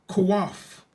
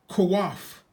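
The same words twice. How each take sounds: Both takes have the same delivery.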